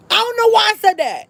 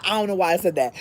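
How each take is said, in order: First: High squeal of disbelief; comically high, baffled outburst; mock dismay. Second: Said in the usual way. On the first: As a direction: squeal it, aghast at yourself. Dismayed at own panicked order.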